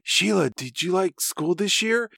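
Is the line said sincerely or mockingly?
sincerely. It is said in a sincere, normal voice.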